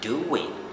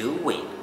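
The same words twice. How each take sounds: First: A W-like glide links the two vowels. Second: The same.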